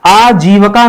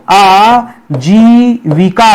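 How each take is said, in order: First: आजीविका said as aa-jee-va-ka, a short a in the middle; teacher modelling the wrong आजीविका; wrong form shown. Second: आजीविका said very slowly as aa-jee-vi-ka with a clear vi; teacher slowly giving the correct आजीविका; correct form. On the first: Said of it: "आजीविका नहीं होता है". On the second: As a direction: slowly model the right आजीविका. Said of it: "आजीविका होता है". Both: Shown as a demonstration.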